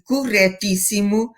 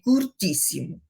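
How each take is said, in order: First: Every vowel in the word is clearly pronounced. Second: The early vowels are closed and swallowed. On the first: The speaker calls it right. "em vez de corretíssimo" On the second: The speaker calls it wrong. "dizerem curtíssimo"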